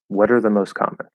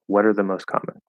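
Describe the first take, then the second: Both takes have the same delivery.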